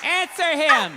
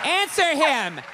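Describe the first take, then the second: First: Mock shout, louder. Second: Mock shout. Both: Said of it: "answer him right".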